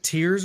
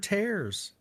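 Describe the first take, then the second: First: The vowel sounds like the one in 'ear'. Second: The vowel sounds like the one in 'air'. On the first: The kingdom is crying. "Is the kingdom crying?" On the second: The kingdom is being torn apart. "Or is it being torn apart?"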